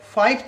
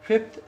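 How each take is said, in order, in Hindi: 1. पहला स्वर लंबा है, 'five' की तरह। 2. पहला स्वर छोटा है, 'fit' की तरह। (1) "कई बच्चे फिफ्थ को फाइफ्थ बोल देते हैं" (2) "इसकी स्पेलिंग फिफ्थ होती है"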